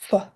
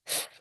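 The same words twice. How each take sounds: First: The sound ends with an added short vowel. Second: The sound is held alone with no vowel. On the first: The speaker calls it wrong. "and not f" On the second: The speaker calls it right. "the f sound is pronounced as f"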